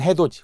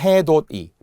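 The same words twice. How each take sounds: First: It is palatalized, with a j sound. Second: It is read as spelled, with a d sound. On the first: This is how the word is actually pronounced. "발음은" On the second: This is how the word is written. "표기는"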